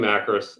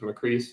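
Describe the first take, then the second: First: The second syllable has an 'oh' vowel. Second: The second syllable has an 'ee' vowel. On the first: This is how most people say the name. The speaker calls it wrong. "most people do Macros" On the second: This is how the family says the name. The speaker calls it right. "my father always said it was Macrease, so that's how I pronounce it"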